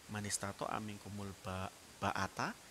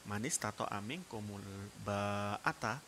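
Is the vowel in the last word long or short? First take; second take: short; long. First: The vowel in the last word is kept short. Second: The vowel in the last word is drawn out long. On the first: Whoever is capable of intimate relations should marry. "kalau dibaca pendek" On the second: Whoever can afford the costs of marriage should marry. "kalau dibaca panjang"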